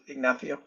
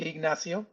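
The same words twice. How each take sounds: First: The name is said in a Spain accent. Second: The name is said in an Argentine accent. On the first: "in Spain you would probably like go with Ignacio" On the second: "in Argentina we would say Ignacio"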